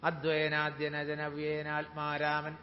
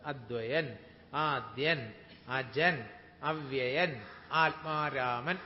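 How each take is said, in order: First: The words are run together quickly without pauses. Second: Each word is said slowly with a pause after it. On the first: "ഇങ്ങനെ സ്പീഡിൽ വായിക്കാനൊന്നും ശ്രമിക്കരുത്" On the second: "ഇങ്ങനെ നിർത്തി നിർത്തി നിർത്തി വായിച്ച് പഠിച്ചോളൂ"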